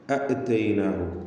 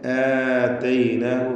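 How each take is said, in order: First: A short vowel is followed by a glottal stop. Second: The first vowel is long, with no glottal stop. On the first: This is the underlying original form. "അപ്പോൾ അസ്ൽ എന്താണ്? അ ഇത്തൈനാഹു എന്നാണ്" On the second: This is the form actually recited. "ആതൈനാഹു എന്ന് അതിനെ അലിഫാക്കി മാറ്റുന്നു"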